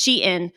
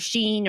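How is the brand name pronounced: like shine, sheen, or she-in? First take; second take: she-in; sheen. First: It is pronounced like she followed by in. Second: It is pronounced like the word sheen. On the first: The speaker calls it right. "or it's Shein" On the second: The speaker calls it wrong. "or Sheen"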